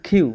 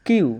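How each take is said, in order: First: "কিউ" opened with a puff, as khiu; "কিউ" with an airy kh sound; aspirated Q. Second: Said in the usual way. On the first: Shown as a demonstration. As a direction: breathe out hard on the k of "কিউ". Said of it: "হবে কিউ". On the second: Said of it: "কিউ হবে না".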